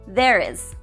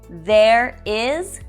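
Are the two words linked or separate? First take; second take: linked; separate. First: An extra sound links the two words. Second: The two words are said separately.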